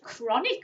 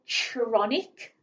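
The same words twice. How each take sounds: First: The first sound is a hard k sound. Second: The first sound is not a k sound. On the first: The speaker calls it right. "I think that uses the k sound" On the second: The speaker calls it wrong. "Doesn't sound right if I say chronic"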